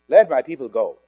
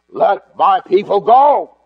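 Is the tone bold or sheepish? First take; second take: sheepish; bold. First: It is said timidly and sheepishly. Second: It is said boldly and with authority.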